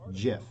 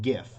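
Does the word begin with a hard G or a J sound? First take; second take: J sound; hard G. First: The word begins with a J sound. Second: The word begins with a hard G sound. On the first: The speaker calls it right. "with a like the J sound" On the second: The speaker calls it wrong. "not GIF"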